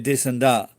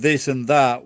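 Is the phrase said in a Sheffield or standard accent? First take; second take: Sheffield; standard. First: It is said in a Sheffield accent. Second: It is said in a standard accent. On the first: "we say this and that. This is the working class" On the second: "instead of saying this and that"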